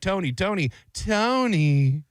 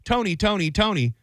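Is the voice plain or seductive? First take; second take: seductive; plain. First: It is said in a slow, sultry, seductive way. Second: It is said in a flat, ordinary way. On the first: "the first time she did it, it was like" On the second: "totally did not do it"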